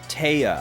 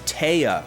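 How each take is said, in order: First: The first vowel sounds like 'tie'. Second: The same.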